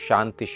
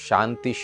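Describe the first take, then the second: The two takes are said the same way.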